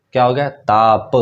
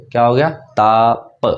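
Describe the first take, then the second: First: Said in the usual way. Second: ताप drawn out slowly and clearly; slow repeat. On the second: Shown as a demonstration. Teacher repeating ताप for pupils, slowly. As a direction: spell out ताप slowly for the class.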